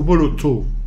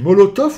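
First: The name ends on a vowel, no final f. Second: The name ends with an f sound. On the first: "donc ça doit être Moloto, non?" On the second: "Tout le monde prononce Molotov, mais je vois pas de F"

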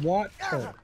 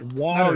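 First: The middle consonant sounds like a T. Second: The middle consonant sounds like a D. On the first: The speaker calls it right. "I'm saying it with a T" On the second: The speaker calls it wrong. "Because we pronounce it with a D"

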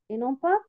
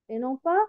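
The two takes are said the same way.

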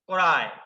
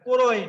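First: The first vowel is the open natural sound. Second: The first vowel is a rounded o-sound. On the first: The speaker calls it right. "অ এর উচ্চারণ স্বাভাবিক হয়" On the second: The speaker calls it wrong. "নয়"

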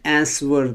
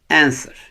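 First: The W sound is pronounced. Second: The W sound is silent. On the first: The speaker calls it wrong. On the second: The speaker calls it right.

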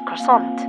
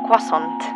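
First: It is said with an English pronunciation. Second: It is said with a French pronunciation. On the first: The speaker calls it wrong. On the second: The speaker calls it right.

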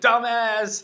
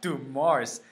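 First: The name sounds like the words dumb ass. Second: The name ends in a 'mars' sound. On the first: The speaker calls it wrong. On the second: The speaker calls it right.

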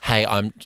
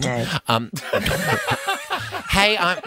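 First: The voice starts on a lower pitch. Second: The voice starts on a high pitch.

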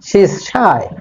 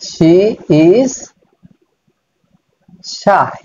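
First: 'She is' is contracted into one syllable. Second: 'She is' is said as two full words. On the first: "spoken ইংলিশে বলবে তখন কিন্তু এভাবে বলতে পারো" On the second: "এই যে শি শি আমরা বলছি"

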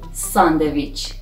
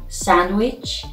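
First: The word is said with a Persian pronunciation. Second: The word is said with an English pronunciation.

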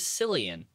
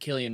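First: The name begins with an S sound. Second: The name begins with a hard K sound. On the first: The speaker calls it wrong. "the C makes an S sound" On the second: The speaker calls it right. "That's how you pronounce his name"

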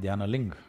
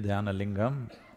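First: The final syllable is cut off. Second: The final syllable is pronounced fully. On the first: "they'll say Dhyanaling" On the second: "If you say Dhyanalingam"

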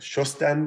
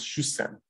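First: The word has an s followed by t. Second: The word has a long s without t. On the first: "The st consonant cluster becomes just a long s" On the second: "is often pronounced as shusem"

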